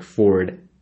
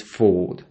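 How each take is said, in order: First: "Ford" with an American R before the d; pronounced R. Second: "Ford" as "fawd", long vowel and no R; silent R. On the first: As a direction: curl the tongue for the R in "Ford". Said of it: "we won't pronounce it like Ford". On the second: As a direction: drop the R in "Ford", British style. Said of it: "It's Ford". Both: Shown as a demonstration.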